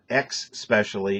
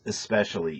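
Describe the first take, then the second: First: The word begins with an 'eks' sound. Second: The word begins with an 'es' sound. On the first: The speaker calls it wrong. "it's not X specially" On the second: The speaker calls it right. "E S, not E X"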